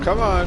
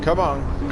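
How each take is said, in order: First: Peak pleading, higher, stress on "on"; pleading climax. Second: Rising urgent plea, louder; urgent urging. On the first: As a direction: hit "on" high and loud in "come on". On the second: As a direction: push the car on, urgently. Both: Real, not acted. Urging on the car.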